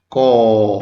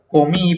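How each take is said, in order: First: "comí" as long "co", pause, long "mí"; split into syllables. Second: Said in the usual way. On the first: Shown as a demonstration. Teacher dividing a word for pupils, "comí" syllable by syllable. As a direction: stretch each syllable of "comí" far apart. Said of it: "en sílabas". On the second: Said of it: "por ejemplo, la palabra comí".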